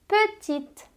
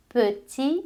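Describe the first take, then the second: First: "petite" higher, crisp t at the end; final T sounded. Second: "Petit" ends on the vowel, no t; silent final T. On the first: Teacher contrasting petite with petit for students. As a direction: land clearly on the t of "petite". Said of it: "A adição do E deu som ao T". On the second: Teacher contrasting petit with petite for students. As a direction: stop "Petit" before any t. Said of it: "Você não pronuncia o T final". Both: Shown as a demonstration.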